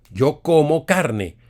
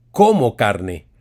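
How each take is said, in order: First: "yo como carne" said slowly, every word clear; slow demo phrase. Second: "como carne" said low and firm; como carne demo. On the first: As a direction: spell out "yo como carne" for students. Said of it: "no tiene acento". ("yo como carne" despacio y claro) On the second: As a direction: state "como carne" as an example. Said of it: "si tú dices". ("como carne" como ejemplo) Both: Shown as a demonstration.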